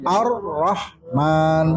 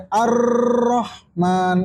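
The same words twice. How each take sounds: First: AR-RAHMAN slow and split, brief doubled R; R only twice. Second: AR-RAHMAN with a long trill on the R; over-rolled R. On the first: Teacher correcting to two Rs, slow and separated. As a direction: slowly say "Ar-Rahman", short hold on the R. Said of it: "Jadi cuma dua kali". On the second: Teacher showing the forbidden reading, R trilled too long. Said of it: "Nggak boleh sampai". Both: Shown as a demonstration.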